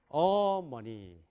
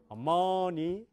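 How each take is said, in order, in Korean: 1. 한 음절에 강한 강세가 있어요. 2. 한 음절에 강한 강세가 있어요.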